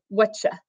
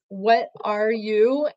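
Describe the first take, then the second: First: The words blend into one short reduced word. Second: Each word is said separately and fully. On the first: "So you hear "whatcha" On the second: "It's "What are you?""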